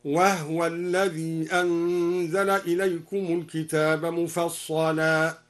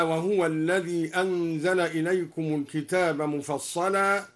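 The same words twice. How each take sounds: First: Slow recitation, "وهو" as wahwa with vowelless h; al-Duri reading. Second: Said in the usual way. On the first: Shown as a demonstration. Teacher demonstrating al-Duri's reading, "وهو" chanted slowly as wahwa. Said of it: "سكن الدوري الهاء هكذا". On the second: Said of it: "سكن الدوري الهاء".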